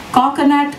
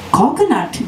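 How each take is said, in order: First: A hint of a kid street vendor, higher pitch, calling out Coconut; lightly voiced little hawker crying his wares; yelping hawker boy. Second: Gasped. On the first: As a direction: sing out Coconut like selling on the lakeside. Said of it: "yelped a hawker". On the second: Acted. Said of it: "gasped Angela".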